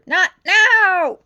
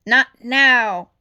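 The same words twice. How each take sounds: First: Much louder, higher yell; angry shout. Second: Louder firm refusal; firm brush-off. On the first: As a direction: lose patience now. Chief losing patience. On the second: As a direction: wave it off curtly. Chief brushing off intercom. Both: A narrator's reading.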